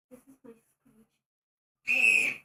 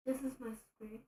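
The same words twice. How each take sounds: First: Slow, drawn-out shrieking screech. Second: Said in the usual way. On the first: Shown as a demonstration. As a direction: screech it out slowly like a dying hamster. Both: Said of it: "Wanna hear my new screech?".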